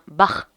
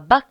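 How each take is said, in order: First: The name is said the German way. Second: The name is said the French way. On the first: The speaker calls it right. "Bach était allemand, du coup ... mais bien Bach" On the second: The speaker calls it wrong. "ça se prononce pas Bach"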